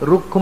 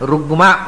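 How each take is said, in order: First: A k sound comes before the m. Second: A g sound comes before the m. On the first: The speaker calls it wrong. "ರುಕ್ಮ ಅಲ್ಲ" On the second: The speaker calls it right. "ಗಕಾರ"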